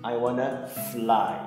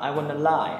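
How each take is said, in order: First: The f sound at the start is pronounced. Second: The f sound at the start is dropped. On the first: The speaker calls it right. "Các bạn nhớ là" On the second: The speaker calls it wrong. "I wanna lie là sai"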